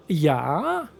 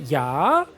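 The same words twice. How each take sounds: First: Rising, stretched yeah; mock the yeah with a rising drawl; mocking drawn-out yeah. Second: Lower, rising drawled yeah; mocking drawn-out yeah. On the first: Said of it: "I had to make fun of myself". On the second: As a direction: drag out the yeah with a rise. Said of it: "I like the way I said". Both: Shown as a demonstration.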